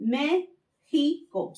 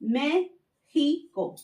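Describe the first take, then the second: First: The middle consonant is a harsh h sound. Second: The middle consonant is a harsh h sound.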